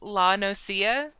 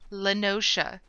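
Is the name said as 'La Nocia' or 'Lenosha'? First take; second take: La Nocia; Lenosha. First: The name is said as 'La Nocia'. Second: The name is said as 'Lenosha'. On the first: The speaker calls it wrong. "instead of always saying La Nocia, like it, my brain interpreted it initially" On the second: The speaker calls it right. "made sure to say it correctly"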